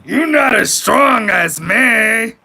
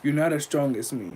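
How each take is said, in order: First: Slow, high, shouted boast, stretched out; mock shout. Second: Said in the usual way. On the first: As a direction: yell it like a puffed-up tough guy. Mocking reenactment of boast.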